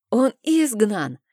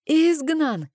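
First: Loud, high, slow insistent cry; shouting. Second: Much higher, loud shrieked repeat of изгнан; screaming. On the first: Uncle shouts at the priestess, insisting. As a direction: hammer the word изгнан as proof. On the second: Uncle screams the word once more at the priestess. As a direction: push the repeat to a frantic peak. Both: A narrator's reading. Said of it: "кричал дядя".

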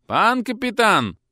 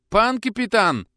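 First: High, loud, drawn-out call; calling through door. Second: High, loud, drawn-out call. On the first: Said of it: "крикнули из-за двери". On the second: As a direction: call out as the door bursts open. Stas calling, bursting in. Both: Acted.

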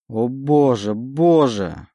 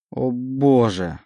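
First: A touch of tears; tearful. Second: Slow, stretched anguished plea; pleading despair. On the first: Oleg repeats his plea, tears welling. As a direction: plead on the edge of tears. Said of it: "На глазах его заблестели слёзы". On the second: Oleg begs God in anguish, slow. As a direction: beg in despair. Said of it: "взмолился Олег". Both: Acted.

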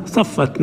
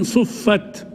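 First: صفت with a short a, "saffat"; active vowelling. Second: صفت with a short u, "suffat"; passive vowelling. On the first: Teacher offering the other reading, صفت vowelled as "saffat". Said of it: "صفت لأن الفعل وقع منها". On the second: Teacher checking the hadith's wording, صفت vowelled as "suffat". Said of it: "ولا صفت؟". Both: Shown as a demonstration.

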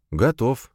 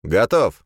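First: Said in the usual way. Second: Calm. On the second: Acted. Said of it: "спокойно произнёс".

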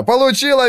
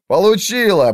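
First: Much higher, loud victory whoop; higher exultant shout. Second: Loud, higher whoop of victory; triumphant cry. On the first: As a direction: cheer it even harder. (ликующий крик ещё выше) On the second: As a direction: shout it, the hit just landed. (радостный победный возглас) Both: A narrator's reading. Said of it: "радостные мужские голоса".

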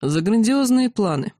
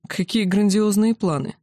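First: Lightly jeering toast; openly mocking. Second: Lightly amused, holding back a smirk; suppressed smirk. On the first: Dragon toasts the students' plans, openly mocking. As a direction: propose the toast with open mockery. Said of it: "откровенно издевательски произнёс он тост". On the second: Dragon reacts to the boy's marriage plans, suppressed smirk. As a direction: keep the mockery just under the surface. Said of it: "с трудом сдерживая усмешку". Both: A narrator's reading.

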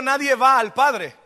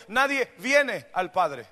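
First: Said in the usual way. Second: Slow, with "viene" set apart; deliberate emphasis on the word "viene"; stress on VIENE. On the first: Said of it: "No dijo". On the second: Shown as a demonstration. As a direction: lean on "viene", drawing it out. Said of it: "No dijo, "Nadie viene al Padre".

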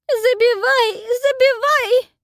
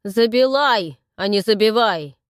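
First: Very high, loud, slow sobbing забивай; loud crying granny, забивай drawn out; old woman's crying. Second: Loud, with Забилай said with a burred l; loud correction. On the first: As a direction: wail забивай in a granny's cry. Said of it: "старческий плач". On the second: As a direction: shout Забилай into her ear, stressing забивай. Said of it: "почти оглушил". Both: Acted.

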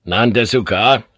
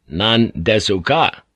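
First: Said in the usual way. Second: Slow, deliberate, irritable question; impatient. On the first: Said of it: "he asked again". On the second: A narrator's reading. Weary man asks his housekeeper again, impatient. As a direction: ask it slowly, with tired impatience. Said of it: "impatiently, his fatigue making him irritable".

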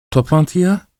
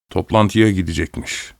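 First: Wife timidly insists on the meeting. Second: Softer sneering echo of her word; mock her idea under his breath; husband mocks his wife's wish to attend; scornful mutter. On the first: Acted. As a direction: say it meekly, hoping.

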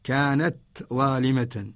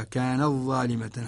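First: كانت ظالمة with the تاء clearly sounded; كانت ظالمة said slowly, ت then ظ; the تاء in كانت kept clear before ظالمة; Qalun's clear reading. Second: كانت ظالمة with the تاء merged into the ظاء; كانت ظالمة run together as كان ظالمة; ظالمة joined straight onto كان with no ت; Warsh's merged reading. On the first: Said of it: "يظهر قالون". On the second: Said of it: "فيأخذ بالإدغام". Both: Shown as a demonstration.

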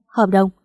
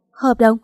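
First: A mild, unbothered answer; nonchalant reply. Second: Mildly taken aback; surprised echo question. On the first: Man answering her about the paper he holds, nonchalant. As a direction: answer casually, as if it were nothing. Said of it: "Anh thản nhiên trả lời cô". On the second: Woman asking back about the contract he shows her, mildly surprised. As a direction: ask it back with a touch of surprise. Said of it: "Cô hỏi lại anh với sự ngạc nhiên". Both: A narrator's reading.

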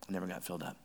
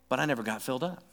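First: Much softer, lower repeat of I never got filled up; quiet echo. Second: Said in the usual way. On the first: Shown as a demonstration. Pastor echoing his point to the church, softly. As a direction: let it sink in quietly. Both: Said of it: "line repeated softer".

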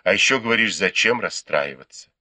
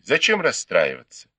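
First: Mocking echo. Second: Soothing, a touch higher, to calm her; smooth it over gently; conciliatory. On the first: Xiang Yun echoing Si Zhen's words, mocking. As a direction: throw the words back, higher and louder at first. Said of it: "недовольным тоном". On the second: Si Zhen calming the offended girl, conciliatory. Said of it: "примирительно сказали". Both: A narrator's reading.

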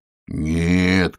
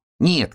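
First: Restrained, drawn-out protest; mild bear cub cry at normal pitch; long, held objection without real shouting; bear cub's shout. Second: High-pitched cry of protest; little hedgehog's high shout. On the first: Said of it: "крикнул медвежонок". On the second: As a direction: object sharply in a high hedgehog voice. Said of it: "крикнул ёжик". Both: A narrator's reading.

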